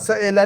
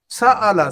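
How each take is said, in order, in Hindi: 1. दूसरा स्वर 'e' वाला है। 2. दूसरा स्वर खुला 'a' वाला है। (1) "सएला नहीं"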